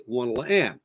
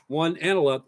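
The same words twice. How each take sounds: First: "one, la" run together, landing on "and"; three notes first. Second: "one" stands alone, then quick "and a la"; single note then three. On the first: Drum teacher showing the reversed rhythm, counted three notes first. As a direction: count "one, la, and" with the group before the lone beat. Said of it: "The three notes come first". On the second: Drum teacher showing the original rhythm, counted single note first. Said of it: "single note, three notes". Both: Shown as a demonstration.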